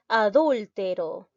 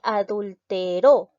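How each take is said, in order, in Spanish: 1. La tónica es la antepenúltima sílaba. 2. La tónica es la última sílaba. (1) "Es una palabra esdrújula" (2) "La mayor fuerza de voz recae en la última sílaba"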